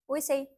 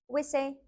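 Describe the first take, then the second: The two takes are said the same way.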